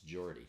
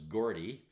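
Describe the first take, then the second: First: The name begins with a soft J sound. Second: The name begins with a hard G sound. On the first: The speaker calls it right. "it's it's Geordie" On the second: The speaker calls it wrong. "I thought it was Gordy"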